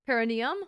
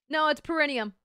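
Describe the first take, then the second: First: "Perineum" opening on a clear PEH, questioning; questioned pronunciation. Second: "perineum" with a reduced first syllable, pur-ih-NEE-um; corrected pronunciation. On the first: Streamer querying chat's version, "Perineum" with a PEH first syllable. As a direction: say "Perineum" as PEH-rih-nee-um, rising doubtfully. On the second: Streamer correcting chat, "perineum" begun with a short PUR. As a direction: firmly say "perineum" starting on a quick PUR. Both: Shown as a demonstration. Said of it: "how to pronounce this shit".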